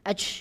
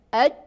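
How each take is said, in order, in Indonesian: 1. Bunyi berakhir dengan napas keluar, seperti bersin. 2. Bunyi berhenti mendadak tanpa napas keluar. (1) "Ini seperti orang bersin, ini bukan jim" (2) "habis suara"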